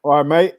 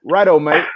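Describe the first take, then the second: First: Put-on a British "mate" that slips into a light Australian accent; accidental Australian accent. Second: A lightly hammed-up Australian "Righto, mate"; deliberate Australian accent. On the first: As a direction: try a UK greeting but land lightly Australian. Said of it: "You sounded more Australian than you did". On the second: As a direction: play up a mild Australian accent on purpose. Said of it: "that's definitely Australian".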